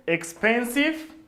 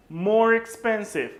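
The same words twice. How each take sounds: First: Slow, deliberate "expensive" said syllable by syllable; drawn-out model word. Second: "More expensive" with MORE leaned on, said slowly; stress on MORE. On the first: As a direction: stretch "expensive" slowly for the class. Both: Shown as a demonstration. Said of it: "teacher models comparative".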